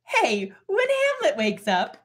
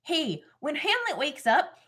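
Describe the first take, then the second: First: High, slow cartoonish character voice; Horatio voice. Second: High, slow Minnesota lilt; Minnesota accent. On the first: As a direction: put on a high, drawn-out Horatio. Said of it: "I'm doing a Horatio voice". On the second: Acted. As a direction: play it with a drawn-out Minnesota accent. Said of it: "supposed to be doing a Minnesota voice".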